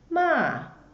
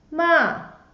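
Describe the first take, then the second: First: The pitch falls sharply from high to low. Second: The pitch falls sharply from high to low.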